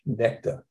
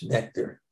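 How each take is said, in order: First: "nectar" with the final r dropped; proper English pronunciation. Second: Said in the usual way. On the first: Shown as a demonstration. Teacher playfully correcting himself to proper English, "nectar" without the r. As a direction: say "nectar" the English way, ending in a soft "uh". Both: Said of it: "as you pronounce it properly in English".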